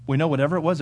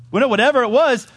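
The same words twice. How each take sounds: First: Said in the usual way. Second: Loud, high, punched-out declaration; emphatic preaching. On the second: Real, not acted. Preacher repeating the point to congregation, loud emphatic preaching. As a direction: drive it home at raised pitch and volume.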